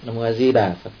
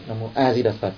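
First: The stress falls on the words Di Đà. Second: The stress falls on the word A. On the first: "thì mình chuyển sang chữ Di Đà" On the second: "Thế mình nhấn mạnh chữ A"

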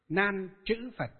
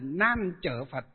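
First: It is said with a northern Vietnamese pronunciation. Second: It is said with a southern Vietnamese pronunciation. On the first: "Chứ miền Bắc chúng ta ngày xưa chúng tôi đi học Đức Pháp Chủ với các thầy là chữ chữ" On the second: "miền Nam là Nan Chở Phật"

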